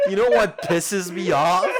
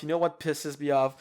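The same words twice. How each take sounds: First: A louder rerun with a laugh. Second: Said in the usual way. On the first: Real, not acted. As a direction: raise it and laugh through it.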